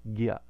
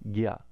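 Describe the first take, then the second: First: It starts with a g sound, then y. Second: The same.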